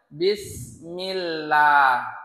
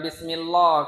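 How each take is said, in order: First: The l is light and thin, with bright vowels. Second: The l is heavy and thick, with dark vowels. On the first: The speaker calls it right. "maka ia tipis" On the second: The speaker calls it wrong. "Bukan Bismillah kita baca kan"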